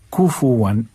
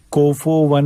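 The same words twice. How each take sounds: First: कुफुवन as "kufuwan"; pure "oo" sounds in कुफुवन; clear U vowels. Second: कुफुवन as "kofowan"; faulty "ko-fo" in कुफुवन; O sound replacing U in कुफुवन; O vowels, wrongly. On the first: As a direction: say कुफुवन with U, never O. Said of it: "ऊ की आवाज़ आएगी". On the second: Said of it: "नहीं पढ़ना है". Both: Shown as a demonstration.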